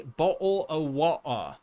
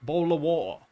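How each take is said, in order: First: "bottle of water" with a clear t in "bottle"; full bottle of water. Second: "bowl of water" in a British accent, t dropped from "bottle". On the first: Streamer contrasting how Brits don't say it, carefully pronounced. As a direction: say "bottle of water" with every t crisp. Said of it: "we don't say bottle of water". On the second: Streamer showing chat how Brits say it, British accent. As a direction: drop the t's like a Londoner in "bowl of water". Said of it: "We say". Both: Shown as a demonstration.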